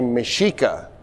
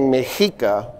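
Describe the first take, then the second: First: The middle consonant is an sh sound. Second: The middle consonant is a ch sound. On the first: "a lot of people will say Mexica, S H" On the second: "the X at the time made the Ch sound"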